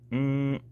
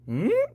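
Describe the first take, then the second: First: The pitch stays level throughout. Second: The pitch moves up or down noticeably. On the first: The speaker calls it right. "keep that voice of yours kind of monotone" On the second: The speaker calls it wrong. "not super mm"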